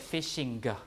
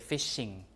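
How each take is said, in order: First: The final G is pronounced as a hard sound. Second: The word ends in ng with no hard G. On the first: The speaker calls it wrong. "We don't say fishing like that" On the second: The speaker calls it right. "We say fishing like that"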